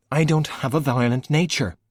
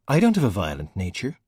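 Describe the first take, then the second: First: Insisting again with "I" pushed; stubborn repeat. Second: Growled. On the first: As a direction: stress on I, said higher. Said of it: "Valkyrie repeated". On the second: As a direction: grumble it back, a touch of a growl. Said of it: "Valkyrie growled". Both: A narrator's reading.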